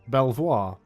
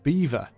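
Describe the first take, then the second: First: It is said as spelled, like bel-vwar. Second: It is said exactly like the word beaver. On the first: The speaker calls it wrong. "it's not pronounced Belvoir" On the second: The speaker calls it right. "it's pronounced beaver"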